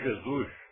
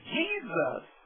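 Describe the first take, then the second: First: The name is said with Portuguese pronunciation. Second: The name is said with English pronunciation. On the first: "Em português dizemos Jesus" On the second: "em inglês Jesus"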